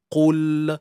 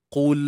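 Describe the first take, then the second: First: The final l is released early with a vowel. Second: The final l is held without release. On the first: The speaker calls it wrong. "kita lepaskan terlalu awal" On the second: The speaker calls it right. "Itu maksud pegang"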